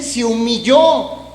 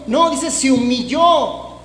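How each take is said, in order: First: "humilló" stretched out slowly and firmly; slow, weighty "Se humilló"; stressed humilló. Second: "No" hit hard, then "se humilló" said slowly; firm "No" opening a slow "dice se humilló"; stress on no. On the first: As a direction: lean on "humilló", drawing out the final syllable. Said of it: "¿Qué dice?". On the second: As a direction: punch "No" to correct the wrong idea. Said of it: "¿O dice se levantó el orgullo?". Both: Shown as a demonstration.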